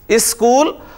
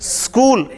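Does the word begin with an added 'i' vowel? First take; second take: yes; no. First: An i vowel is added before the sk cluster. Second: The word starts directly with the sk cluster.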